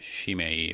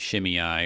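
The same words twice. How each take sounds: First: The name is pronounced the Hebrew way. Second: The name is pronounced the usual English way.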